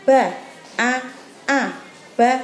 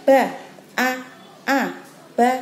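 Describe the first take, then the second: No difference in how they are said.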